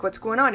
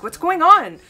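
First: Said in the usual way. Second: Higher and louder, urgent; alarmed demand. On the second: Retold or imitated. Pressing upset grandmother on phone, higher, louder, alarmed. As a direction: push her for an answer now.

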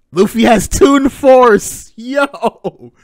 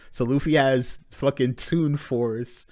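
First: Loud high slow yell of excitement; real excited shout; hype shout. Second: Said in the usual way. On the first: Real, not acted.

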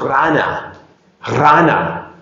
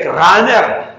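First: Rana for Rahner, ending in an open "na"; German pronunciation. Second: Rahner as "RRA-ner", final R sounded; Spanish pronunciation. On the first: Preacher modelling how Germans say it, Rana without final R. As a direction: drop the final R, "RAH-na" for Rana. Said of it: "ellos pronuncian más o menos". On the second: Tourist in Germany misunderstood, Rahner said Spanish-style with final R. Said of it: "no, no le entienden". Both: Shown as a demonstration.

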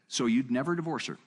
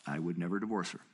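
First: Lightly voiced challenger asking, a bit higher; retold questioner. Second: Lower, matter-of-fact reply; settled retold answer. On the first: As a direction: put the question as a surprised challenger would. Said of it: "Then the guy said". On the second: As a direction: answer calmly, letting the pitch drop. His own firm answer to questioner.

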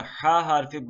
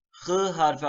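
First: "H" voiced as a throaty "ha" with an open a; name the letter "H" slowly as "ha". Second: "H" as a rasped "khı" with a back ı; name the letter "H" as a thick "hı". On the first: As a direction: say the letter H as "ha", drawn out. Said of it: "Cim, ha, hı". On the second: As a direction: say the letter H as "hı", scraped in the throat. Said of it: "hı, bunlar hepsi". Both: Shown as a demonstration.

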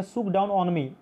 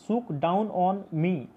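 First: Said in the usual way. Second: "Shook down on me" slowly, each vowel stretched; slow, drawn-out vowels. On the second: Shown as a demonstration. Teacher showing the assonance in "Shook down on me", slow and drawn out. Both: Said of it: "इसका उच्चारण भी vowel के जैसा".

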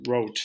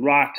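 First: "rot" with long closed o, like "rote"; correct German pronunciation. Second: "rot" with short open English vowel, like decay; English mispronunciation. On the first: Teacher showing learners the colour word, correct German pronunciation. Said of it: "It's pronounced rot". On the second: Teacher warning learners off the wrong sound, English mispronunciation. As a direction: say "rot" as the English word, rhyming with "not". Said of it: "Avoid saying rot". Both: Shown as a demonstration.

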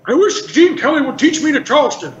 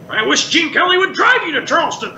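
First: Put-on high, creaky old heckler; cranky old man setting up a joke; Statler. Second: Put-on higher, creaky old heckler; cranky old man landing the punchline; Waldorf. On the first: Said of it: "Statler would say". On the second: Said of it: "And then I would say".

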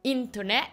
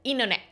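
First: INTERNET with a clear T, in-ter-net; "internet" as spelled, the first T kept; T pronounced. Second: INTERNET without the first T, inner-net; "internet" with the T swallowed. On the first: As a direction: sound the T after "in" in "internet". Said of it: "Vous n'allez pas dire internet". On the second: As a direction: drop the T after "in" in "internet". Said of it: "vous avalez le T". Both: Shown as a demonstration.

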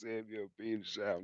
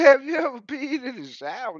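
First: Much softer, fast throwaway; quick soft repeat. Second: Higher, louder mama voice; imitating mama. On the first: Retold or imitated. Repeating mama's question, much softer and fast. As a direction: rattle it off under your breath. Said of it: "It was". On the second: Imitating mama's question, lightly higher and louder. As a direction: ask it like a nosy mama. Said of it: "Mama said".

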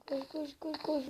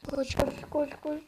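First: Whispering. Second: Said in the usual way. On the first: Real, not acted. Hiding from monsters.

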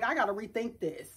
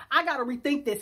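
First: Quiet. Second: Said in the usual way. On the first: Retold or imitated.

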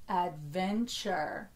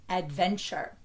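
First: "Adventure" drawn out to feel each syllable; slightly slower. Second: Said in the usual way. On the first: Shown as a demonstration. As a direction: say "Adventure" slowly, in connected syllables. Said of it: "say it a little slower". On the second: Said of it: "saying the word normally".

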